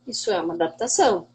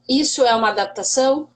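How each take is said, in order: First: "Isso é uma adaptação." settled, falling at the end, softer and quicker; answering statement. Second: "Isso é uma adaptação?" asked with a rising end; rhetorical question. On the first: Teacher answering her own question, firm falling statement. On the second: Teacher asking her colleagues a rhetorical question, rising tune. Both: Shown as a demonstration.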